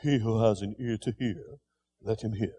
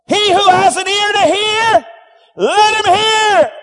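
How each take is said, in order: First: Low, soft, almost murmured; not cried out, just quietly said; quiet, plain saying. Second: High, loud proclamation, slowing at the end; loud preacher's cry, stretched on let him hear. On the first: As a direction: say it softly, like an ordinary remark. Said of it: "He just didn't say". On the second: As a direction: cry it out to the crowd. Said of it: "He cried". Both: Shown as a demonstration.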